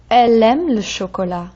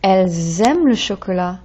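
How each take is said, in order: First: "Elle aime" linked by the l alone, no z; singular, no z. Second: "Elles aiment" with a buzzed z before the verb; plural z liaison. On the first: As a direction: run "Elle" straight into "aime". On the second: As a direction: lean on the z between "Elles" and "aiment". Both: Shown as a demonstration. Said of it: "That Z sound tells me it's more than one".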